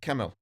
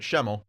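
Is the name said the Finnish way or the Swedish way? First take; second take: Finnish; Swedish. First: The name is said the Finnish way. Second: The name is said the Swedish way. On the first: The speaker calls it right. "but he's Finnish, so it is" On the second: The speaker calls it wrong. "which is the Swedish pronunciation"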